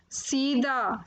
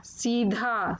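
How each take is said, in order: First: सीधा said "seeda"; mispronounced सीधा. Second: Said in the usual way. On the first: Shown as a demonstration. Teacher showing children the error, सीधा said "seeda". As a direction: take the breath out of the dh in सीधा. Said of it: "अशुद्ध शब्द मैंने रखे हैं". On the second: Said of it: "फिर उनका शुद्ध उच्चारण".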